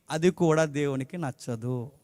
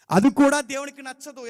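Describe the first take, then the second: First: Said in the usual way. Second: Higher and louder second time; preacher pressing the point hard; emphatic repeat. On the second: Shown as a demonstration. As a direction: drive the line home with force.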